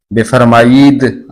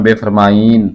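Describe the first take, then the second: First: बेफरमाईद ending in a sounded d; original full pronunciation. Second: बेफरमाईन ending on n instead of d; colloquial pronunciation. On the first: Teacher showing the original word, full pronunciation. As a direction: close बेफरमाईद on a clear d. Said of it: "असल में है". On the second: Teacher showing everyday speech, colloquial pronunciation. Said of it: "बोलचाल में बेफरमाईन". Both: Shown as a demonstration.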